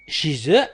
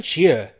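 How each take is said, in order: First: "chez eux" linked as shee-ZUH; liaison Z. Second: "chez eux" as shee-UH, no z; no liaison. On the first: Teacher giving learners the first variant, liaison Z. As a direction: sound a z between chez and eux. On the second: Teacher giving learners the second variant, no liaison. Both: Shown as a demonstration. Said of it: "هناك من يقول chez eux".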